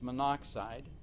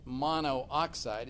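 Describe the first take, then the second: First: One o vowel is dropped, giving three syllables. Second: Both o vowels are kept, giving four syllables. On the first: The speaker calls it right. "if there's two vowels next to each other, generally we drop one of them" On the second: The speaker calls it wrong. "we don't say it's monoxide"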